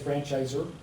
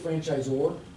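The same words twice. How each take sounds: First: The last syllable is a weak 'er' sound. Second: The last syllable is a full 'or' sound. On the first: The speaker calls it wrong. "some of you said franchisor" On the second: The speaker calls it right. "That, that's the right way to say it"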